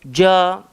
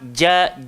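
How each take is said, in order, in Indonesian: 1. Vokal ini diucapkan dengan bibir monyong dan membulat. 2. Vokal ini diucapkan tanpa membulatkan bibir. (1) "Dia tak berhajat kepada" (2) "Cukup dengan tengah-tengah lidah langgar bahagian atas"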